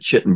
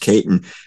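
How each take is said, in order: First: The word begins with a ch sound. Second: The word begins with a k sound. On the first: The speaker calls it wrong. "I would have pronounced it chitin" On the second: The speaker calls it right. "but it's pronounced chitin"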